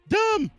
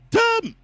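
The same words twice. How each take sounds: First: It is said fairly quietly. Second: It is shouted loudly.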